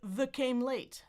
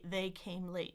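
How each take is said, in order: First: The first word has a weak, reduced vowel. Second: The first word has a full diphthong vowel. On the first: The speaker calls it wrong. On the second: The speaker calls it right.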